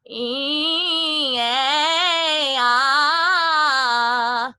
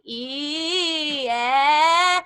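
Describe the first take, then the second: First: "E, eh, ah" high, steady and loud; smoothly blended vowel slide. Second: "E, eh" high, the "eh" much louder; the wrong, pushed vowel; falling back. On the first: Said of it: "learn to blend it". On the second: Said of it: "was falling back". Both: Shown as a demonstration.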